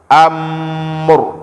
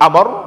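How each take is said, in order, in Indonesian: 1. R terakhir tidak mendadak dan tidak dipanjangkan. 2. R terakhir dilepas dengan tegas dan mendadak. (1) "tapi dia di tengah-tengah" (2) "jangan terlalu dilepas sehingga jadi amr"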